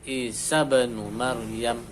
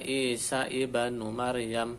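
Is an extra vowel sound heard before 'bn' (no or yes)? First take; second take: no; yes. First: The b follows directly with no extra vowel. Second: A separate vowel is sounded before the b. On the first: The speaker calls it right. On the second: The speaker calls it wrong. "Tidak dibaca"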